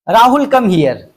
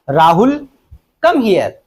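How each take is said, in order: First: The words run together without a pause. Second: There is a pause after the name. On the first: The speaker calls it wrong. "उसने गलत पढ़ा है।" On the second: The speaker calls it right. "इसको ऐसे पढ़ना है"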